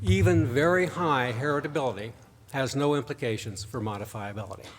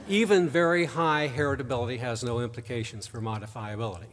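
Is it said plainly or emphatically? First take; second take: emphatically; plainly. First: It is said with strong, forceful emphasis. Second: It is said in a plain, ordinary way.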